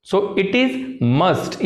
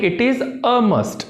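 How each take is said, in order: First: Deliberate learner's mistake, "So it is must" without "a"; slow incorrect example, "must" with no article before it; wrong version, no article. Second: Said in the usual way. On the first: Shown as a demonstration. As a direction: drop the "a": "it is must", said very slowly. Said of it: "ये गलत हो जाएगा". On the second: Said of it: "इसको हमने बोलना है it is a must".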